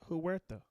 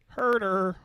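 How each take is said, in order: First: The name begins with a 'hw' glide sound. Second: The name begins with a plain 'her' sound. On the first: It is read the way it is spelled. The speaker calls it wrong. "Is that not how you say his name?" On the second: It is said the way the family says it. The speaker calls it right. "Herder is how they pronounce it"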